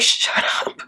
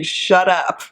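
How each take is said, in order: First: Voiceless mock "shut up"; whispered retort. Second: Said in the usual way. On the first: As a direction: whisper it as a playful comeback. Mock retort to age question.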